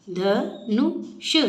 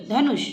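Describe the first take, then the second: First: Dhanush spelled out slowly, each syllable clear. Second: Said in the usual way. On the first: Shown as a demonstration. Teacher sounding out Dhanush slowly for children. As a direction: stretch Dhanush into separate beats. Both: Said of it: "ऊ का sound सुनाई देना चाहिए".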